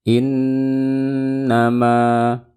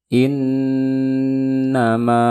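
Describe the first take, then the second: The two takes are said the same way.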